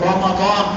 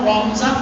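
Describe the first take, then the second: First: The middle consonant is a d sound. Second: The middle consonant is a z sound. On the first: This is the pronunciation used in the scripture. "কোরআন শরীফের আয়াতের শব্দ উচ্চারণ হলো রমাদান" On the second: This is the everyday local pronunciation. "আমরা রমজান বলি"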